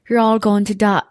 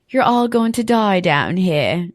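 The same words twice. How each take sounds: First: Failed attempt at an English accent, a little higher; menacing line in a botched English accent; English accent try. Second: Slow, ominous read of the villain line; slow menacing quote. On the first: The speaker tries the gore lover's line in an English accent. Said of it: "that's not the I was trying to do English". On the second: Acted. The speaker quotes the gore lover in a slow menacing voice. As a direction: creep it out slowly, half-committed. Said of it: "that's not how she says it".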